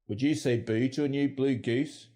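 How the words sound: It is spoken in a Northern Irish accent. "Northern Ireland"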